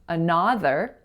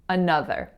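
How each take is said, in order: First: The second vowel is open, as in honest. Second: The second vowel is a lax uh sound. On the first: The speaker calls it wrong. "I intentionally made it a more open sound, as in honest" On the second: The speaker calls it right. "it makes the lax sound uh"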